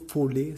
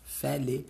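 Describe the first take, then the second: First: The first vowel is a central O sound. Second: The first vowel is an open A sound. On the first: The speaker calls it wrong. "arrêter de prononcer au centre, là, le O. Fait que c'est pas folie" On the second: The speaker calls it right. "Ça se prononce vraiment mieux"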